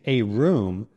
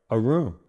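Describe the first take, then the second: First: The word 'a' has a full, clear vowel. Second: The word 'a' is a quick, soft uh. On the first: The speaker calls it wrong. "with a clear a sound" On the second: The speaker calls it right. "a native speaker might say something more like"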